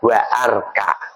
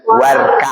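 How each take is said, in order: First: A glottal break separates wa from arka. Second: Wa runs straight into the next word. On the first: The speaker calls it wrong. "jangan dibaca wa arka" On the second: The speaker calls it right. "membacanya warka"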